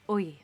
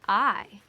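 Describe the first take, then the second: First: The vowel sounds like 'oi' in oil. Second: The vowel is a plain 'eye' sound.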